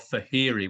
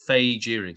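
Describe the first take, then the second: First: The J sound in the name is silent. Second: The J sound in the name is pronounced. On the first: The speaker calls it wrong. "Fahiri with a silent J" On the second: The speaker calls it right. "it's actually Fejiri"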